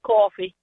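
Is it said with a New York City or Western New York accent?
New York City. Coffee is said in a New York City accent.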